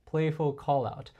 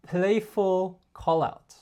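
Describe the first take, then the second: First: Said in the usual way. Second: Slow, stressed announcement; slow title. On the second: Shown as a demonstration. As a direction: spell out the concept name slowly.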